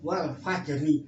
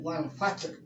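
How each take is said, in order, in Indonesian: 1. Huruf r terakhir diikuti vokal pendek. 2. Frasa berakhir pada konsonan r mati. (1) "Wal fajri jangan" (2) "jangan wal fajr"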